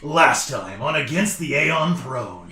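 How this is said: It is said in a dramatic announcer voice.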